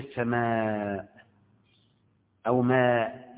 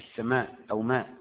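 First: The vowel before the hamza is drawn out long. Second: The vowel before the hamza is cut short. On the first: The speaker calls it right. "تقول السماء او ماء" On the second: The speaker calls it wrong. "دي ما تقصرهاش وتقولش"

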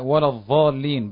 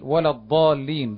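First: The key consonant is pronounced as dha. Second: The key consonant is pronounced as dad. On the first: The speaker calls it wrong. "لحن الإمام في صلاته وقال ولا الضالين بالضاء" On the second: The speaker calls it right. "بدل ولا الضالين بالضاد"

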